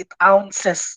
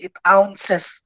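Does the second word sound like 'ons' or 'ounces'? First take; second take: ounces; ounces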